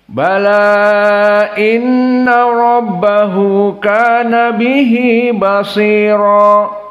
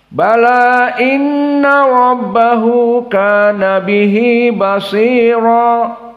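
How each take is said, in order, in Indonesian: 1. Vokal 'bala' dibaca dengan panjang sedang. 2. Vokal 'bala' hanya dibaca sebentar. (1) "dibaca dalam keadaan majaiz munfasil empat" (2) "qiraah Abu Amr bil qasr"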